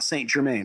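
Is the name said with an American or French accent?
American. The name is said with an American accent. The speaker calls it wrong. "not Saint-Germain"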